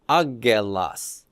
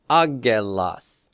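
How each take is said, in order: No difference in how they are said.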